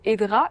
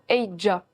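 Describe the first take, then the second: First: The name is said without a j sound. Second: The name is said with a j sound. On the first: The speaker calls it wrong. "c'est pas tout à fait Edra" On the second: The speaker calls it right. "mais plutôt Eidja. Ça s'écrit Edra, mais prononcé avec un J en plus"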